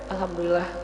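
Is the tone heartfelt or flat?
flat. It is said plainly, without felt emotion. The words are said without real gratitude. The speaker calls it wrong. "Beda dengan"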